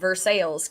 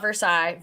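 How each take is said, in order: First: It is said with English-style pronunciation. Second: It is said with French-style pronunciation. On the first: The speaker calls it right. "good old Versailles" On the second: The speaker calls it wrong. "not Versailles"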